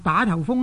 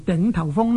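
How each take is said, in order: First: The first syllable is pronounced da. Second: The first syllable is pronounced ding. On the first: The speaker calls it wrong. "以为呢读做行船又遇打头风呢" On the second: The speaker calls it right. "其实呢读做顶头风呢是比较正确的"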